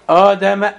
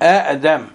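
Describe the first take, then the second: First: It opens with one glottal stop and a long vowel. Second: It opens with two separate glottal stops. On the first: This is the form as it is recited. "مدها" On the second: This is the underlying original form. "بهمزتين"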